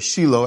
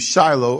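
First: The name is said with local Israeli pronunciation. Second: The name is said with English pronunciation.

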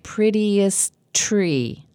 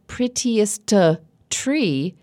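First: The two T sounds are linked together. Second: Both T sounds are released separately. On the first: "it sounds like prettiest tree, linked together" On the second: "Instead of"

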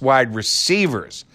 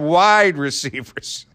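First: The word receivers carries the main stress. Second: The word wide carries the main stress. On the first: It names the football position. The speaker calls it right. "No, it's wide receivers" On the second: The receivers are wide rather than thin or tall. The speaker calls it wrong. "Like there are thin receivers and short receivers and tall receivers"

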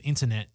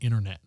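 First: The middle T is clearly pronounced. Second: The middle T is dropped, American style.

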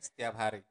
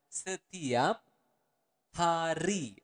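First: It is said at normal speed. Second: It is said slowly.

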